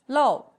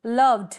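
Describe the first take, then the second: First: लव loud, as a single isolated beat; one-syllable demo. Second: लव्ड slow and loud, one beat; silent-e demo. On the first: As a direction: say लव firmly with no ending. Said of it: "syllable एक ही रहेगा". (लव को ज़ोर से, एक syllable में बोलें) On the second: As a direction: stretch लव्ड without an extra ed syllable. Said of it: "ईडी का sound नहीं आ रहा". (लव्ड को खींचकर एक सिलेबल में बोलें) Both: Shown as a demonstration.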